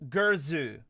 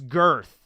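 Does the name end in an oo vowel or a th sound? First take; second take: oo vowel; th sound. First: The name has two syllables ending in oo. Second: The name is one syllable ending in th. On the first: The speaker calls it right. "I think her name is actually" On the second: The speaker calls it wrong. "the way it was pronounced is girth"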